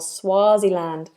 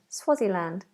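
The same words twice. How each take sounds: First: The vowel is said long. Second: The vowel is said short. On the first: The speaker calls it right. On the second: The speaker calls it wrong.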